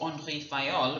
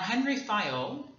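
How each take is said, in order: First: The name is pronounced the French way. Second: The name is pronounced the English way.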